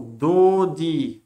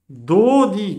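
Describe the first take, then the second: First: Said in the usual way. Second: "Dodi" called out high and loud, both syllables clear; corrected reading. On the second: Shown as a demonstration. Teacher fixes his own mistake: loud, high, emphatic "Dodi". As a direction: ring out "Dodi" as the right answer. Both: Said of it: "parce que là, c'est un O".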